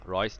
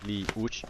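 First: The name is said as one syllable. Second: The name is said as two syllables. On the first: The speaker calls it right. "อ่านว่า Royce นะครับ" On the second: The speaker calls it wrong. "ไม่ใช่"

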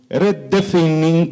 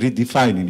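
First: It is said with an Italian accent. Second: It is said in a plain English accent.

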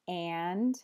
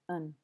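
First: The word is said in its full form. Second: The word is said in a reduced form. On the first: "The full form is and" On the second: "the weak form is just un"

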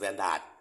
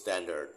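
First: The last syllable has a full 'ah' vowel. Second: The last syllable has a reduced 'uh' vowel. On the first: The speaker calls it wrong. "คนไทยออกเสียงว่า" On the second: The speaker calls it right. "ออกเสียงที่ถูกต้องคือ"

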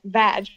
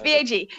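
First: It is said as a single word. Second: It is said as three separate letters. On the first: The speaker calls it wrong. "You don't say just VAG" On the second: The speaker calls it right. "when it's an acronym, you say the letters"

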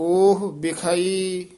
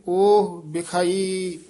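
The two takes are said the same way.

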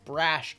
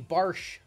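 First: The r comes before the vowel: Brash. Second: The vowel comes before the r: Barsh. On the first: The speaker calls it right. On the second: The speaker calls it wrong.

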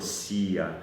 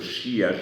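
First: The word begins with an 's' sound. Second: The word begins with an 'sh' sound. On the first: This is how the Podhale dialect says it. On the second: This is the standard form, not the Podhale one. "nie jest to"

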